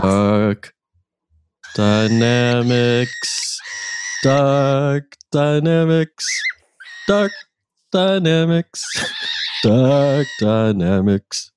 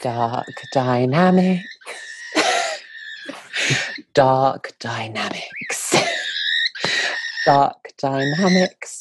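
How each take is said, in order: First: Put-on slow, drawn-out theme chant in a light British accent; amateur British accent, sung slowly as a jingle; British accent theme song. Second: Slow, drawn-out British title chant breaking into laughter; the real British accent version of the jingle, slow and giggly; proper British accent. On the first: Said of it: "you broke into a British accent". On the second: Acted. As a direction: intone the show name slowly in a native British accent, laughing between. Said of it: "do it in the proper British accent".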